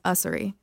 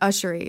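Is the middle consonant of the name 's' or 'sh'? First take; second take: s; sh. First: The middle consonant is an 's' sound. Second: The middle consonant is a 'sh' sound. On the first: This is the family's version. The speaker calls it right. "my family says [name]" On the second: This is the speaker's own habitual version. The speaker calls it wrong. "I've always said Ushery, like [name]"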